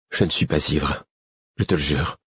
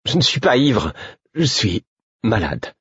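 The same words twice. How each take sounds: First: Earnest plea. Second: High protest, slowing into pained insistence. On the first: Man pleading with his angry friend, earnest. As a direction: swear it quietly and sincerely. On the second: Man accused of drunkenness by his friend, protesting. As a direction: protest high, then drag out the explanation. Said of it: "protestai-je". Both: A narrator's reading.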